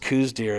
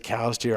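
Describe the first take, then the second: First: The first word rhymes with 'shoes'. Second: The first word rhymes with 'now'. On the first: "it's just coos deer" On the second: "It's just hard to say cows deer"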